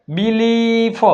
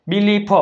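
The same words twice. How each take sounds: First: બિલીફ drawn out on the second vowel; teacher sounding out બિલીફ, stretched ee; long ee sound. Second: Said in the usual way. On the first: Shown as a demonstration. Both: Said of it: "આઈનો ઉચ્ચાર ઈ થાય".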